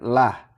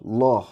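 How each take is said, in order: First: The L is light and thin. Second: The L is heavy and thick. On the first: The speaker calls it wrong. "bukan lah" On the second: The speaker calls it right. "dibaca tebal loh"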